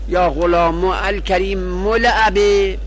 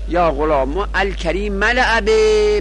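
First: The adjective ends in a 'u' vowel. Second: The adjective ends in an 'a' vowel. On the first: "به ضم رفعی" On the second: "به نصب اعرابی، به فتح اعرابی"

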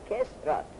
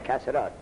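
First: The first vowel is an 'i' sound. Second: The first vowel is an 'a' sound. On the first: "گاهی به کسر میکنن" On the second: "گاهی به فتح"

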